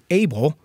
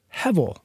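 First: The name is said the usual English way, Abel. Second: The name is said the Hebrew way, hevel. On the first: This is the common English form of the name. "We usually pronounce it Abel" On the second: This is the original Hebrew word meaning breath. "it's the same Hebrew word"

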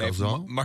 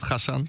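First: The name is said with an English-style pronunciation. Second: The name is said with a Dutch-style pronunciation. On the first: This is how visitors say the name. "voor de toeristen is het Gassan" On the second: This is how locals say the name. "in Amsterdam is het Gassan"

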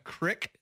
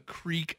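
First: The vowel is a short 'ih' sound. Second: The vowel is a long 'ee' sound. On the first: This marks someone from the Olympic Peninsula. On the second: This is the usual way to say the word.

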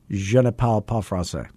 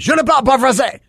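First: It is said at a normal pace and volume. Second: It is said quickly and loudly.

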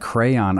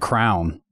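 First: The word is said as two syllables, cray-on. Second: The word is said as one syllable, like crown. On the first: This is how it is said now. "but then it's like crayon" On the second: This is how it was said in childhood. "I always said crown. When I was a kid"

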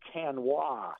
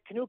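First: It is said the French way, ending in wah. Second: It is said like the English word canoe. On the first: The speaker calls it right. "it's pronounced canois" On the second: The speaker calls it wrong. "You and I would probably say canoe"

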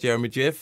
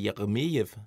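First: The name is said in a plain English way. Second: The name is said in a Russian way. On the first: The speaker calls it wrong. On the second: The speaker calls it right.

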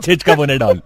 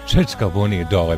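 First: It sounds like an insult. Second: It sounds loving and affectionate.

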